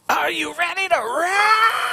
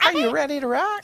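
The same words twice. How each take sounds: First: High, slow cartoon shout; vintage cartoon voice. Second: High squeaky cartoon call; vintage cartoon voice. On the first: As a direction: belt it like an old cartoon character. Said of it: "it comes out in, like, a cartoon voice". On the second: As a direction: bounce it out like a cartoon hero. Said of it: "like, a cartoon voice".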